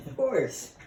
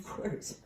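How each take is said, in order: First: Said in the usual way. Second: "Of course" breathed in a whisper. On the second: Shown as a demonstration. Salesman agreeing with a buyer, whispered. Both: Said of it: "lowering your voice maybe just above a whisper".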